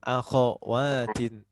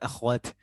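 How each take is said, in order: First: A vowel follows the kh sound. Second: No vowel follows the kh sound. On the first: The speaker calls it right. "Jangan disukun kho-nya" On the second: The speaker calls it wrong. "bukan akhwat"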